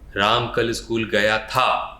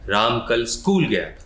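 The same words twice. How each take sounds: First: The word था is stressed. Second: The word school is stressed.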